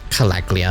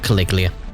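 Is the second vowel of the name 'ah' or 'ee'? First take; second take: ah; ee. First: The second vowel sounds like 'ah'. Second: The second vowel sounds like 'ee'. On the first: The speaker calls it right. "Calaglia, not Caliglia" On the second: The speaker calls it wrong. "not Caliglia"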